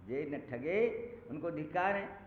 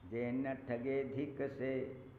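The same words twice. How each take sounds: First: Louder prose gloss, stress on ठगे; emphatic explanation. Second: Very slow recited verse line; verse quoted. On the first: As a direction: explain the line with force. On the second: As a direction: draw the quoted line out slowly. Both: Shown as a demonstration.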